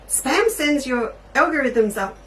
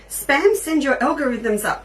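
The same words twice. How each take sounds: First: It is said in an imitated put-on accent. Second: It is said in the speaker's normal accent.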